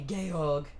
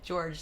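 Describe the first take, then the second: First: The name ends in a hard 'g' sound. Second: The name ends in a soft 'j' sound. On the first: The speaker calls it right. "she calls him Georg" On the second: The speaker calls it wrong. "sorry, I'm saying it wrong"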